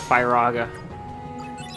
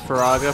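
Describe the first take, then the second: First: The first syllable sounds like 'fire'. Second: The first syllable does not sound like 'fire'. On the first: The speaker calls it wrong. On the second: The speaker calls it right.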